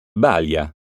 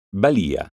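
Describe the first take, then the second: First: Balia said as BAlia, first syllable stressed. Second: Balia said as baLIa, the i stressed. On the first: Teacher contrasting homographs for pupils, BAlia stressed. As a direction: hit BA in Balia. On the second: Teacher contrasting homographs for pupils, baLIa stressed. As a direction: lean on LI of Balia. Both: Shown as a demonstration. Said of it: "Eccone alcuni esempi".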